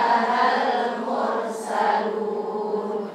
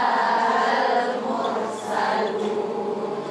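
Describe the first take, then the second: Both takes have the same delivery.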